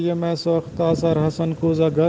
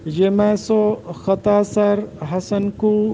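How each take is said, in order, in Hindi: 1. यह मिसरा स्वाभाविक, जुड़ी हुई बोलचाल की तरह बहता है। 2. यह मिसरा अलग-अलग वज़नी टुकड़ों में कटा हुआ है।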